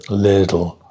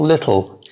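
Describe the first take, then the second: First: The middle consonant sounds like a soft D. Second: The middle consonant is a clear T sound. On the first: "American English is more little with a with a D" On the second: "English people will go more um, lit, tl"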